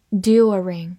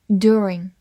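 First: "During" in British style, DYOO-ring; British accent. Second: American "during" with an r-coloured first vowel; American accent. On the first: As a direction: give the British reading of "During". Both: Shown as a demonstration. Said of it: "或者美式发音".

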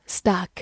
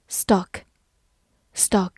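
First: "stock" with an open, unrounded ah vowel; "stock" with the American-style ah; alternative pronunciation of stock. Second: "stock" with a rounded short o vowel; "stock" rhyming with British "clock"; first pronunciation of stock. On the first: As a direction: say "stock" like "stahk". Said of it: "或者读作". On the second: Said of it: "或者读作stock". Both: Shown as a demonstration.

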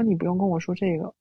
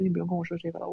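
First: Said in the usual way. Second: Much softer, settled voice; calm and gentle. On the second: Retold or imitated. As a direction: let it go quietly and kindly. (平静轻柔地说) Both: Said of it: "我的语气又能恢复到现在的状态".

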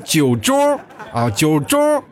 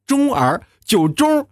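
First: 酒盅 said high and slow, still missing the er; laughing failed 酒盅; trying 酒盅 again. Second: 盅儿 then 酒盅 squeezed out much higher; laughing attempt at 盅儿 and 酒盅; forcing the er sound. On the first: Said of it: "我这个酒盅老是说不好". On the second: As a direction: strain to get 盅儿 right, high and laughing. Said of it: "那儿字老是出不来". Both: Shown as a demonstration.

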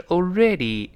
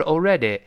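First: Already ending in a clear long "ee"; correct ending. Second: Already ending in an "eh" sound; wrong ending. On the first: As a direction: finish "already" on ee, drawn out slowly. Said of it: "是already". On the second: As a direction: mispronounce "already" with final A instead of ee. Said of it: "不要发A， 所以不是already". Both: Shown as a demonstration.

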